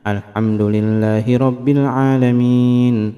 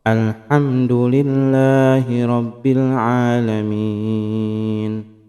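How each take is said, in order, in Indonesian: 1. Dibaca dengan tempo yang cepat. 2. Dibaca dengan tempo yang sedang. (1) "yakni bacaan dalam tempo yang cukup cepat ya" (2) "yaitu dalam tempo yang sedang"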